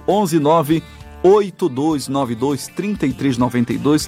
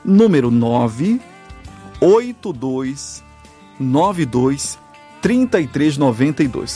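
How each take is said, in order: First: The number is said quickly. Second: The number is said slowly.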